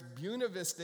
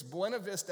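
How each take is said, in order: First: Buena Vista said BYOO-na Vista; local pronunciation. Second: Buena Vista said BWEN-a Vista; California pronunciation. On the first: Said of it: "It's Buena Vista here". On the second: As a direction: Buena with a Spanish-style "bwen". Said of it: "out there". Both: Shown as a demonstration.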